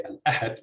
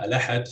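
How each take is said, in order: First: Al-ahad with a catch before A-had; glottal stop kept. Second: Al-ahad run together as a-LA-had; glottal stop dropped. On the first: Lecturer showing the variant, al-ahad with glottal stop kept. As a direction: break al-ahad with a glottal stop, second syllable stressed. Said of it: "if you keep the, uh, the glottal stop". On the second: Lecturer giving an example, al-ahad linked without glottal stop. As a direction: say al-ahad with no catch before ahad, second syllable stressed. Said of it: "the second syllable is stressed". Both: Shown as a demonstration.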